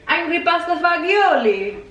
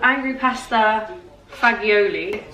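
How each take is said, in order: First: It is said in a put-on Italian accent. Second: It is said in the speaker's ordinary accent.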